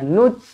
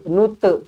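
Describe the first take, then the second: First: The final t is held without release. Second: The final t is released with a bounce. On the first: The speaker calls it right. "nut macam tu" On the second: The speaker calls it wrong. "nute tak nak"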